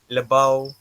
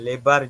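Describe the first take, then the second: First: The word ends with an au sound. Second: The word ends with a standard final r. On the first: "nampak sedikit perbezaan di hujung suku kata tu" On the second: "lebar jadi lebau"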